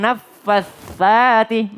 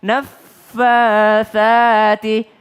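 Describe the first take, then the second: First: NAFFATSATI with both F and TS held double; wrong doubled tsa. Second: NAFFATSATI with doubled F and a light, single TS; correct single tsa. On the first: Teacher showing wrong naffatsati, doubled tsa. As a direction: lean hard on the TS of NAFFATSATI as well. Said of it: "jadi bukan naffatsati". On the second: Teacher modelling naffatsati, tsa not doubled. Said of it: "fa-nya udah nggak pakai tasdid". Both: Shown as a demonstration.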